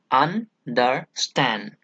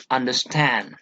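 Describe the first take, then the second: First: "understand" slowly split as un, der, STAND; stress on last syllable, broken up. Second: "understand" with weight on STAND; stress on third syllable. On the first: Teacher breaks down the anapest for students, slow and stressed last. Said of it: "importance to the last one only". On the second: Teacher gives an anapest example, stress on third syllable. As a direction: lean on the last syllable of "understand". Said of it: "third syllable is given importance". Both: Shown as a demonstration.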